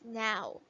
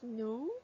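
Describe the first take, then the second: First: The vowel sounds like 'ow'. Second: The vowel sounds like 'oh'. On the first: The speaker calls it right. "We pronounce it as now" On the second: The speaker calls it wrong. "That's not how we pronounce it"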